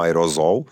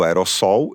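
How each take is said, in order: First: The middle consonant is a voiced z sound. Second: The middle consonant is a voiceless s sound. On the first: The speaker calls it wrong. "e não com som de Z" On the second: The speaker calls it right. "O correto é aerossol"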